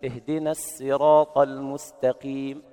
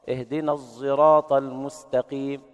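First: Slow chant with a light س in السراط; with seen. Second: Slow chant with ص shaded into a ز sound; الصراط said zeraat-like, between ص and ز; sad blended with zay. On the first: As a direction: recite الصراط as السراط with a plain س. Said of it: "هكذا". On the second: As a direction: recite الصراط with ص voiced toward ز. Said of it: "بالإشمام الصاد صوت الزاي". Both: Shown as a demonstration.

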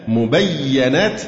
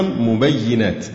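First: مبينات with an a after the doubled y, "mubayyanat"; slow, careful مبينات as mu-bay-ya-nat; fatha on ya. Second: مبينات with an i after the doubled y, "mubayyinat"; kasra on ya. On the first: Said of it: "وتقرأ أيضًا مبينات بفتح الياء". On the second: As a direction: say مبينات as mu-bay-yi-nat. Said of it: "وكسرها". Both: Shown as a demonstration.

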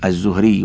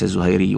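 First: "الزهري" as az-Zuhri, two syllables after the article; correct name form. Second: "الزهيري" as az-Zuhayri, with an added ay; rejected name form. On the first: Reader correcting the narrator's name for listeners, "الزهري" as az-Zuhri without a diphthong. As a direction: say "الزهري" with h straight into r. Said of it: "أنه الزهري وليس الزهيري". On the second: Reader showing students the mistaken name, "الزهيري" as az-Zuhayri with a diphthong. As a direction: say "الزهيري" with ay between h and r. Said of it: "وليس الزهيري". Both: Shown as a demonstration.

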